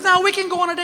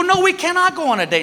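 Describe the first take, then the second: First: High, insistent wife; wife insisting. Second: High, mock-firm refusal; stubborn refusal. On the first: Retold or imitated. Wife insisting on a date, high pitched. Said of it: "She goes". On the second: Husband refusing his wife's date, mock firm. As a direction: dig in and refuse. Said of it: "And I go".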